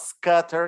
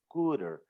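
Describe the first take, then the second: First: The first vowel is not an oo sound. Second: The first vowel is a long oo sound. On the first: The speaker calls it wrong. "it's not" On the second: The speaker calls it right. "scooter is the oo sound"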